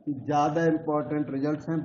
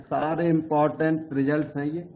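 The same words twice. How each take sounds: First: ज़्यादा leaned on, the rest quieter; stress on ज़्यादा. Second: Said in the usual way. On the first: Real, not acted. Teacher to students, upgrading the point, stress on ज़्यादा. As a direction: push the word ज़्यादा a little harder.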